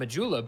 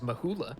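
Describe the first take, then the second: First: The name is said in a plain English way. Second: The name is said with a Spanish-style sound. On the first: "I assumed Majula" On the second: "like a little Spanish influence here and there"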